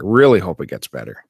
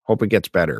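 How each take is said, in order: First: "Really" leaned on, louder and raised; stress on Really. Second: Said in the usual way. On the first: Real, not acted. Viewer repeating a hope for the show, stress on "Really". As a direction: hit "Really", then let the rest fall.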